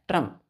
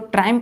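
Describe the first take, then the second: First: The first vowel is a short 'uh' sound. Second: The first vowel is a long 'eye' sound. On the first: "आई यहाँ पे silent होता है" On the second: "इसको ट्राइम्प भी पढ़ सकते हैं"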